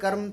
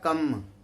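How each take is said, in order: First: The r before m is pronounced. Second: The r before m is dropped. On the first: This is the original Sanskrit form. "बोल कर्म" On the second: This is a simplified child's form. "छोटे बच्चे को कहा जाए कि बोल कर्म तो बोलेगा कम"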